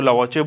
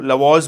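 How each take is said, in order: First: Lavazzi in three syllables, with a final vowel; long brand pronunciation. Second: Lavaz ending on a z sound, no final vowel; short brand pronunciation. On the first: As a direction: say Lavazzi with a vowel after the middle consonant. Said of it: "लोग इसको Lavazzi बोलते हैं". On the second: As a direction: say Lavaz in two syllables, ending in z. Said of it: "कई लोग इसको Lavaz बोलते हैं". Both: Shown as a demonstration.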